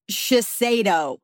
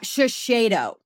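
First: Slow Shiseido, shuh-SAY-doh; Shiseido, plain S before the stressed vowel. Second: Slow Shiseido, shuh-SHAY-doh; Shiseido, SH at both first syllables. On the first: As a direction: say Shiseido with "say" in the middle. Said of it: "No, Kirby, it's Shiseido". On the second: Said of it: "not Shiseido". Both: Shown as a demonstration.

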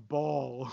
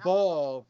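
First: "ball" dropped low and soft for weight; emphatic BALL. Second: Said in the usual way. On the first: Shown as a demonstration. Friend correcting the degree of crying, weighty low "ball". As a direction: say "ball" deep and heavy, as real sobbing. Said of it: "And not, not ball, but". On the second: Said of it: "not, not ball, but ball".

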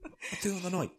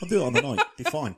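First: High, exaggerated cocky boast; cocky mimic. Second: Loud, high cocky boast; cocky confidence. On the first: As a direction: ham up the boast. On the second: Pretend. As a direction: brag it loudly. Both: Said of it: "I was like".

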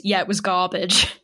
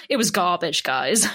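First: Said in the usual way. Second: Deadpan put-down. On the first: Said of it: "And he goes". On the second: Retold or imitated. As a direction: deliver it without blinking, bored and blunt. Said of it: "Like, not even blinking".

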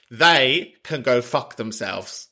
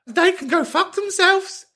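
First: Slow, deliberate, in a normal register; measured, emphatic verdict; firm insistence. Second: Very high squealed outrage; shrieky high register, playfully indignant; comic indignation. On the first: Real, not acted. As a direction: spell it out slowly for a friend. Repeats it slowly, firmly. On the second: Acted. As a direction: squeal it in mock outrage for a friend. Indignant on caller's behalf.

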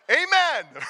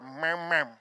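First: AMEN loud, high and fully pronounced; loud, clear amen. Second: AMEN mumbled into a closed-mouth "mem-mem". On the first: Shown as a demonstration. Preacher shows congregation how to respond, loud clear AMEN. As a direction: belt out a clear two-syllable AMEN. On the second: Retold or imitated. Preacher mimics congregation's weak response, mumbled AMEN. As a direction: swallow AMEN into an indistinct hum.

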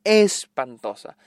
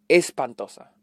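First: "Espantosa" stretched slowly, syllable by syllable; slow emphatic repeat. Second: Said in the usual way. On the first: Real, not acted. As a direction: drag out "Espantosa" to drive the verdict home. ("Espantosa" alargada y lenta, con énfasis)

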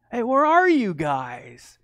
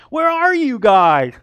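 First: Drawn-out searching call, raised a little; playful calling out. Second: Drawn-out high holler; loud calling out. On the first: God looking for Adam and Eve, playfully calling out. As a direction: call slowly as if playing hide and seek. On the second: God seeking hidden Adam and Eve, hollering playfully. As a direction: call louder into the distance, stretching it. Same call, repeated louder. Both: Acted.

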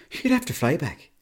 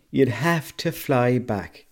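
First: Higher-pitched first take of the punchline. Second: Slow, emphatic repeat. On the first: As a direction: toss it out high and quick in an Irish accent. Repeats joke punchline for emphasis. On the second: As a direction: drag the punchline out at half speed. Repeats joke punchline slowly for emphasis. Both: Pretend.

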